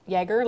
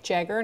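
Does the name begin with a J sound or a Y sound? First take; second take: Y sound; J sound. First: It begins with a Y sound, like yes. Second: It begins with a J sound, like jam. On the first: The speaker calls it wrong. "not Jagger, like Jagermeister" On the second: The speaker calls it right.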